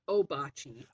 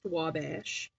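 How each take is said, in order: First: The name begins with an 'oh' sound. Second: The name begins with a 'wah' sound. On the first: This is how locals say it now. "we pronounce it Obachi" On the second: This is how it was said for a while. "There was a period of time where it was pronounced Wabash"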